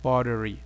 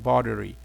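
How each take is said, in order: First: It is said in an American accent. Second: The same.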